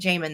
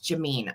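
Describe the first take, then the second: First: The name ends with a short 'min' sound. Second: The name ends with a long 'meen' sound. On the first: The speaker calls it wrong. "have been saying it Jamin this whole time" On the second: The speaker calls it right. "So it's Jameen"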